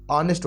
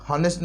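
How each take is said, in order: First: ऑनेस्ट with a silent h; correct pronunciation. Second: हॉनेस्ट with a sounded h; wrong pronunciation. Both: Shown as a demonstration. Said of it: "हॉनेस्ट नहीं".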